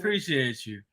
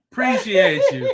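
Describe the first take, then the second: First: Said in the usual way. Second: High, loud, playful thank-you. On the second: Real, not acted. Host thanking a viewer for dropping the TikTok, playfully effusive. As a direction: thank them big with a laugh in it.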